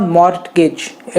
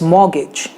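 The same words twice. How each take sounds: First: Mortgage with the t sounded, slowly; wrong mortgage. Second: Mortgage as mor-gij, t silent; correct mortgage. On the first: Teacher showing students the wrong mortgage, t sounded. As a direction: say mort-gage pronouncing the t. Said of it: "it's not". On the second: Teacher showing students the right mortgage, silent t. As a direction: drop the t in mortgage. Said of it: "मॉर्गेज में ट नहीं बोला जाता". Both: Shown as a demonstration.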